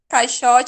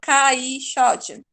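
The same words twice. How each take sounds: First: The two vowels are run together quickly. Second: The two vowels are split apart slowly.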